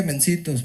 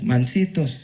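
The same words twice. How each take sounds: First: "mencitos" said with an e sound, the mistaken word; "mencitos", the word he did not mean; wrong word mencitos. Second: "mansitos" said clearly with an a, lower and deliberate; "mansitos", the intended word, spelled out in sound; correct word mansitos. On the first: ("mencitos" con e, la palabra equivocada) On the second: ("mansitos" con a, dicho claro y bajo) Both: Shown as a demonstration. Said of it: "No dije mencitos".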